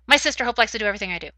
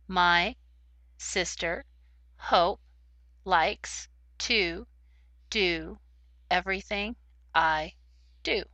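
First: The words are read very quickly, rushed together. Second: The words are read very slowly, one by one. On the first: "But if you read too quickly, no one will be able to understand what you are saying" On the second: "If you read too slowly, it sounds like words, but they don't go together to make a sentence"

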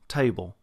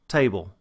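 The two takes are said the same way.

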